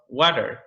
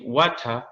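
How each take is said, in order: First: It is said in an American accent. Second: It is said in a British accent. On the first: "instead of water" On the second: "the British people, they they say water"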